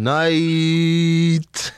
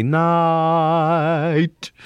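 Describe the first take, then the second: First: "night" sung high, sliding early into ee; long high "nah-eeet". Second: "night" sung long and high on an open ah; sustained high "naaaht"; teacher's proper "night". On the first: Acted. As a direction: hold "night" on the ee glide. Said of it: "And I'm going". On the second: Retold or imitated. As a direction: hold the ah in "night", close at the very end. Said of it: "you should say night".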